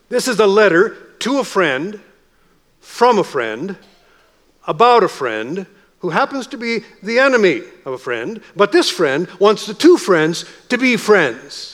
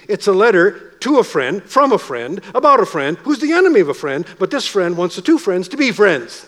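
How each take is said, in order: First: It is said slowly. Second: It is said fast.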